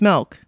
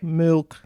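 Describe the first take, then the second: First: The word is said in the natural speaking voice. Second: The word is said in a deliberately lowered voice. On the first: The speaker calls it wrong. "Because if I say it in my voice" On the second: The speaker calls it right. "I have to like lower my voice and go milk, ... then I say it right"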